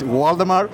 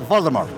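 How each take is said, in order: First: The name is said the Uruguayan way. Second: The name is said the European way. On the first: "Usually in my country, I born in Uruguay, it's Waldemar" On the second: "But going to Europe, the people say Waldemar"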